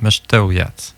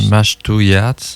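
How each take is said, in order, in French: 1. La première voyelle est un son bref proche de « e ». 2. La première voyelle est un son « a » ouvert. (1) "c'est un petit peu comme un E" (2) "on a tendance à vouloir dire mash"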